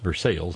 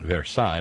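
First: The name is said the local Kentucky way. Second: The name is said the French way. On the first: It names the town in Kentucky. "that's Versailles" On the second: It names the place in France. "not Versailles like in France"

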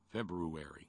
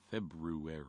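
First: The R after the B is pronounced. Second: The R after the B is pronounced.

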